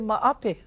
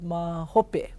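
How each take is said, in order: First: The 'h' is dropped, giving 'maape'. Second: The middle syllable is said as 'ho'. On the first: A casual spoken form meaning later. "some people say maape" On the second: The standard written form. "instead of mahope"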